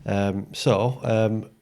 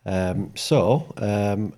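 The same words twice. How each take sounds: The two takes are said the same way.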